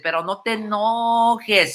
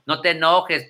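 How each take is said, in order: First: Higher, slow whiny plea; drawn-out mock begging on enojes; mock pleading. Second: Said in the usual way. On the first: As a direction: stretch it out like a teasing whine. Teasing repeat of the same plea.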